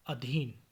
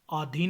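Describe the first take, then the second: First: Said in the usual way. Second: आधीन with long आ at the start; mispronunciation. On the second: Shown as a demonstration. (आधीन, शुरू में लंबा आ) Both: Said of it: "नहीं".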